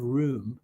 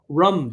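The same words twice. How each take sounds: First: Said in the usual way. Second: "rum", room said with a short vowel; short-vowel "rum" in place of room. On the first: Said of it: "instead of room". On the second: Shown as a demonstration. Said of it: "I say rum though instead of room".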